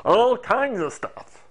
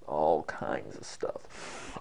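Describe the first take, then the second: First: Slow, high, pushed silly voice; funny high voice. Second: Slow, soft, very deep put-on voice; funny low voice. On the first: Teacher showing varied voices, funny high voice. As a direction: leap way up and stretch it out. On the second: Teacher showing varied voices, funny low voice. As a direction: sink right down and draw it out. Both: Shown as a demonstration. Cycling through voices on one phrase.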